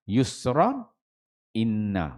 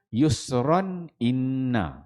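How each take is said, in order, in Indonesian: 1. Ada jeda singkat di antara kedua kata. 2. Kedua kata tersambung tanpa jeda. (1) "Yusran berhenti kemudian sambungan inna" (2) "dia teruskan"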